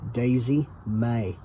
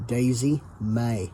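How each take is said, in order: First: It is said in a Southern American accent. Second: The same.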